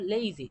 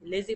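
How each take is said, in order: First: The first vowel glides like 'ay'. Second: The first vowel is a plain, short 'e'. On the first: The speaker calls it right. "সঠিক উচ্চারণ হলো লেজি" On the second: The speaker calls it wrong. "এখানে আমরা অনেকে লেজি করে থাকি"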